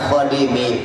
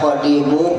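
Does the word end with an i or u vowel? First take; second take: i; u. First: The word ends with an i vowel. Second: The word ends with a u vowel. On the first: It stands in apposition to the preceding name. "dibaca khadimi pun benar" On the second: It is the predicate of an omitted subject. "Dibaca khadimu benar"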